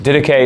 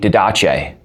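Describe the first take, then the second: First: The word is pronounced without an Italian style. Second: The word is pronounced in an Italian style. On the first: The speaker calls it right. "Didache is how you say it" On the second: The speaker calls it wrong. "If the Didache were a person and he were Italian, his name would be"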